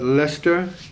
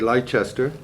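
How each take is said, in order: First: The name is said the British way. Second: The name is said the American way.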